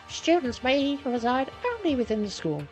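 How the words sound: It is read in a put-on character voice.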